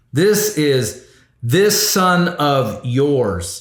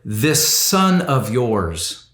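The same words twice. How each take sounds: First: Slow, drawn-out "This is this son of yours"; pointedly disowning; stress on this. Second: Contemptuous. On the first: Shown as a demonstration. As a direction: lean hard on "this", cold and distancing. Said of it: "this isn't my brother". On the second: Retold or imitated. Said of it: "The older brother said to the father".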